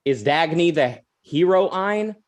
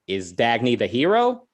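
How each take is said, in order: First: "hero Ayn" said as HERO-EYEN, slowly; slow question, "hero Ayn" split like hero plus Ayn; mispronounced heroine. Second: "hero" said as the ordinary word, rising; questioning rise on "hero", the name left off; misheard as hero. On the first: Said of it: "he couldn't pronounce the word correctly". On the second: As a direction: ask it with a clean "hero", nothing attached. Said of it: "Ayn Rand thought he was asking". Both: Retold or imitated.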